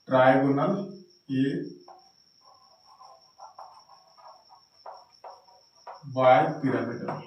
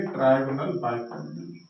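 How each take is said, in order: First: Slow, spelled-out term. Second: Said in the usual way. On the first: Shown as a demonstration. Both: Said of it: "तो हम इसको कहेंगे".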